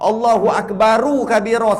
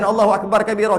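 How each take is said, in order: First: Akbar ends in an added u vowel. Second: Akbar ends on r with no vowel.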